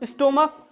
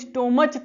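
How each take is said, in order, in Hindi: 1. यह शब्द k ध्वनि से खत्म होता है। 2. यह शब्द ch ध्वनि से खत्म होता है। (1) "उसका उच्चारण क होता है" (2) "स्टोमच तो नहीं पढ़ेंगे"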